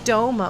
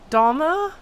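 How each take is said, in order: First: The first vowel is a long O sound. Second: The first vowel is not a long O. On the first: This is how the speaker has always said it. "I've been saying Doma my whole life" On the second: This is how others in the game say it. "It's not quite do, it's not a long O sound"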